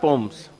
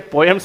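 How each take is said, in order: First: The middle vowel is dropped. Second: The middle vowel is fully pronounced. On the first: The speaker calls it right. "ई नहीं बोलते" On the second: The speaker calls it wrong. "पोयम्स नहीं होता"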